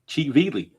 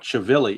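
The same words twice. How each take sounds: First: The vowels are all 'ee' sounds. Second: The vowels are not all 'ee' sounds. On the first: The speaker calls it right. "it's Chivili with all the E's" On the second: The speaker calls it wrong. "it's not Chivili"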